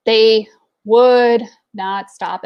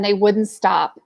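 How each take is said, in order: First: "would not" drawn out slowly, word by word; slow, weighty stress on each word of "would not"; emphatic repeat. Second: Said in the usual way. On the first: Real, not acted.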